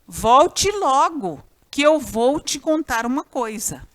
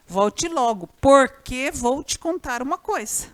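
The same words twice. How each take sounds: First: Said in the usual way. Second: "porque" punched and held; stress on PORQUE. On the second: Shown as a demonstration. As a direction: lean hard on "porque" as the substituted word. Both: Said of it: "Você pode pôr o pois no lugar ou porquê".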